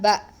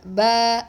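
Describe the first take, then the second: First: The vowel is cut short. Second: The vowel is held long, about two seconds. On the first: The speaker calls it wrong. "It's not Ba" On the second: The speaker calls it right. "we give two seconds"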